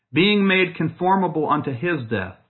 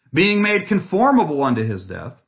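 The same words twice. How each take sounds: Both takes have the same delivery.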